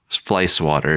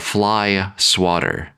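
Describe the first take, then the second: First: Fly runs into swatter, sounding like flice. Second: Fly and swatter are said as separate words. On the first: "Flice, fly swatter is like how I say it" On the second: "technically it's like a fly swatter, like you swatting at a fly"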